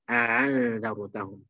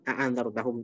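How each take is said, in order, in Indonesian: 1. Hamzah kedua dilunakkan menuju vokal. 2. Kedua hamzah diucapkan penuh dan jelas. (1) "Itu dibaca dengan tasil" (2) "tahqiq dua-duanya jelas"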